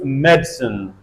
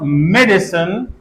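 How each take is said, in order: First: The middle vowel is dropped, giving two syllables. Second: The middle vowel is pronounced, giving three syllables. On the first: "we can elide this a" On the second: "instead of medicine"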